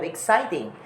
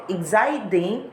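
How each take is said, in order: First: Said in the usual way. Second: "exciting" with a D for the T; American T as D. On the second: Shown as a demonstration. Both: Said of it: "instead of exciting".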